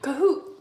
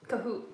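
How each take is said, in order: First: Kahoot! shouted louder with a rising pitch; excited recall. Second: Said in the usual way. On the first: Real, not acted. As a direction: blurt out Kahoot! as it comes to mind. Suddenly remembers the name.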